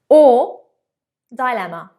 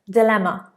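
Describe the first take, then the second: First: The first syllable has an 'eye' vowel. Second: The first syllable has a short 'ih' vowel. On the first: "So you can choose the or die" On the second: "So you can choose the or die"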